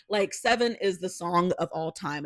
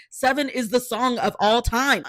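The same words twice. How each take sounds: First: Said in the usual way. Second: Excited insistence. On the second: Real, not acted. Repeats claim, louder higher.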